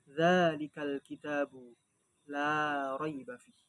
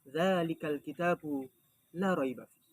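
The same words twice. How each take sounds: First: The vowel in 'la' is held long. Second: The vowel in 'la' is cut short. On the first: It means there is no doubt. "La raiba fih di situ lamnya panjang" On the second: It means truly or surely. "kalau lafaz lam di situ dibaca pendek"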